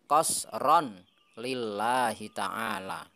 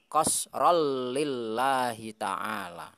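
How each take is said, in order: First: The n sound is kept before lillahi. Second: The n sound merges into the following l. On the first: The speaker calls it wrong. "bukan qasron" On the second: The speaker calls it right. "tapi qasrol lillahi ta'ala"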